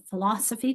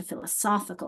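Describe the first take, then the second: First: Philosophy weighted on LOS; stress on second syllable. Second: Philosophical weighted on SOPH; stress on third syllable. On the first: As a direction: put the strength on LOS in philosophy. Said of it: "that second syllable". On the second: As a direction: put the strength on SOPH in philosophical. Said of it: "to the third syllable". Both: Shown as a demonstration.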